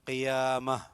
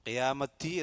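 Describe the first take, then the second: First: The word ends on an a sound. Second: The word ends with a ti sound. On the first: The speaker calls it right. "ഹ ഉച്ചാരണം" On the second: The speaker calls it wrong. "എന്നല്ല"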